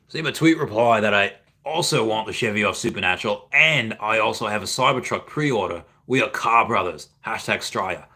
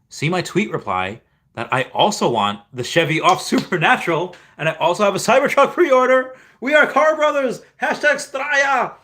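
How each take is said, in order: First: It is read in an Australian accent. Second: It is read in his normal accent.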